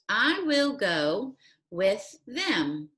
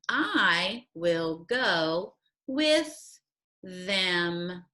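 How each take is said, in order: First: It is read at a faster pace. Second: It is read at a slower pace.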